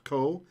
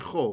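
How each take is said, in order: First: The word begins with a hard k sound. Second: The word begins with a throaty kh sound. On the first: "makes the kaf a k sound" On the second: "So the pronunciation is cha"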